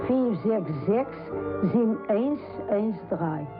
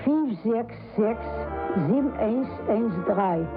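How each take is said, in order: Both takes have the same delivery.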